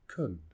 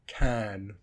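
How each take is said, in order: First: The word is said in a weak, reduced form. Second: The word is said in its full form.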